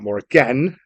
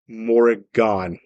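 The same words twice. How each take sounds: First: The last syllable sounds like "an". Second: The last syllable sounds like "awn". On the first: The speaker calls it wrong. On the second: The speaker calls it right. "Has a A W N sound to it"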